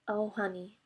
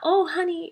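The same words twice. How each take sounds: First: It is said sadly, the voice breaking slightly. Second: It is said brightly, without sadness.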